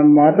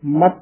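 First: ਮਤ with a slack single T; loose T. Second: ਮਤ closed firmly as "matt"; slightly tight T. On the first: Teacher shows the mistake, ਮਤ with loose ending. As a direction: leave the final T of ਮਤ untightened. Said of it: "ਨਹੀਂ ਕਹਿਣਾ". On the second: Teacher shows correct reading, ਮਤ with pressed ending. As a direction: tighten the final T of ਮਤ. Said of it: "ਥੋੜਾ ਜਿਹਾ ਕੱਸ ਕੇ". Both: Shown as a demonstration.

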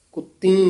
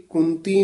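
First: ਕੁੱਤੀ said kut-tee, with a held t; doubled t. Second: ਕੁੰਤੀ said kun-tee, with an n; nasal before t. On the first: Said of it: "ਕੁੱਤੀ ਉਚਾਰਨ ਕਰਨਾ ਹੈ". (ਕੁੱਤੀ ਅੱਧਕ ਨਾਲ) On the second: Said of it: "ਇਹ ਕੁੰਤੀ ਨਹੀਂ ਕਹਿ ਜਾਣਾ". (ਕੁੰਤੀ ਟਿੱਪੀ ਨਾਲ) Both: Shown as a demonstration.

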